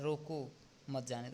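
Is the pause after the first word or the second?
first. The pause comes after the first word. Do not let the person go. "उसको जाने मत दो"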